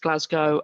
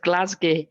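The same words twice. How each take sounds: First: It is said with a southern English pronunciation. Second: It is said with a Scottish pronunciation. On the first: This is how people in London say it. "in London it's Glasgow" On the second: This is how locals in the city say it. "in Glasgow it's Glasgow"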